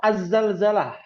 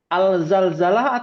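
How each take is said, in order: First: Az-Zalzalah with no l in the article, z doubled; assimilated lam. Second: Al-Zalzalah with a clear l before the first z; louder quiz option, Al-Zalzalah with the l pronounced; sounded lam. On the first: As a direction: drop the article's l and hold the z in Az-Zalzalah. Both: Shown as a demonstration. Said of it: "Al-Zalzalah atau Az-Zalzalah?".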